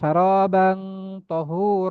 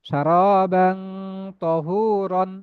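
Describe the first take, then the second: First: The last word ends with a long a. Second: The last word ends with an n sound. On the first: The reading stops at this word. "এক জবর বাদ দিয়ে একালিপ টেনে পড়তে হয়" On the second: The reading continues on without stopping. "এভাবে পড়তে পারেন"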